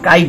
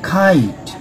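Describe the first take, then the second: First: The first k sound has no puff of air. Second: The first k sound has a puff of air. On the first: The speaker calls it wrong. "আমরা কাইট বলবো না" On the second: The speaker calls it right. "আমরা বলবো খাইট"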